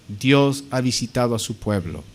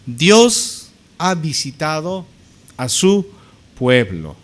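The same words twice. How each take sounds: First: Said in the usual way. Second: "Dios ha visitado" drawn out, pauses before "su pueblo"; slow proclamation. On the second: Acted. Preacher voicing the crowd glorifying God, slowly proclaiming. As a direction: declaim it slowly in separate, weighty pieces. Declaimed crowd quote, then restated plainly.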